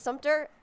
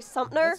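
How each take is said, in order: First: The middle has a clear t sound. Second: The middle has a p sound and no t. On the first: The speaker calls it right. "instead of Sumter" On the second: The speaker calls it wrong. "I've heard people say Sumpner instead of Sumter"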